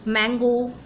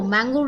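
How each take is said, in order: First: मैंगो with a short open a like English mango; मैंगो pronounced as in English; correct mango. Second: मैंगो read Hindi style with a long aa; मैंगो the Indian misreading; wrong mango. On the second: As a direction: say मैंगो as माँगो, the common wrong way. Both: Shown as a demonstration. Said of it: "This is not a correct pronunciation".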